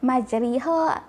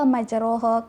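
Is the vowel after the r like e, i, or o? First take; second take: i; o. First: The vowel after r sounds like i. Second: The vowel after r sounds like o. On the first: "dia akan sebut majriha ... semua tu salah" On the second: "majroha ke, tapi uh, semua tu salah"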